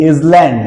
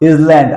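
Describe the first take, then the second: No difference in how they are said.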